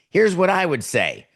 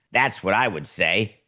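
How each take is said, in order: First: "Here's what I would say" pitched high, as a retort; emphatic retort. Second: Said in the usual way. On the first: Real, not acted. Countering the quote with own answer. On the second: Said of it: "And he said, quote".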